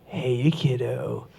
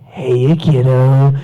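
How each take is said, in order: First: Low, slow and hushed villain line; quietly sinister hello; lightly voiced creepy villain; creepy clown greeting. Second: Low, slow villain drawl; slow sinister clown voice; creepy Joker greeting. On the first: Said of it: "all I did was say". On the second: Retold or imitated. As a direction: sneak up and purr it like a creepy clown. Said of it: "and I went".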